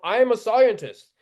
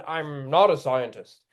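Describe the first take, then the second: First: Higher mock boast, falling at the end; mock self-important claim. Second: Said in the usual way. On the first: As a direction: imitate an expert pulling rank. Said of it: "and the occasional". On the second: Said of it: "except for conveniently when".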